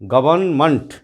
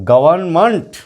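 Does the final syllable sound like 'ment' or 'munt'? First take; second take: munt; munt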